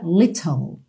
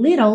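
First: It is said in a British accent. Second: It is said in an American accent. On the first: "Se fosse uma pronúncia britânica" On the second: "Mas no inglês americano"

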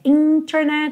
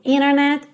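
First: The T after the N is clearly pronounced. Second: The T after the N is dropped. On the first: "ao invés de dizer internet" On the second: "às vezes esse T some. Então, ao invés de dizer internet, eu digo internet"

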